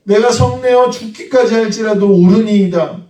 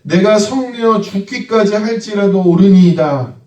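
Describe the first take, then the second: First: Jonah's line repeated, higher and insistent; defiant Jonah. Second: Jonah's reply. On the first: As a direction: hammer home 성내어 with stubborn pride. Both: Acted. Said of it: "요나가 이렇게 대답합니다".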